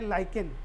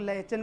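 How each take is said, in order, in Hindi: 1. बीच का व्यंजन 'k' की ध्वनि है। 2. बीच का व्यंजन 'ch' की ध्वनि है। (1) "इसका सही वर्ड जो है वो है लाइकेन। एच यहाँ पे साइलेंट हो जाएगा।" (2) "बहुत सारे लोग इसको लाइचन भी पढ़ते हैं"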